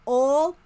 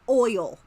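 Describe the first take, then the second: First: The word is said as one syllable. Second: The word is said as two syllables. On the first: "One or two?" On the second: "One or two?"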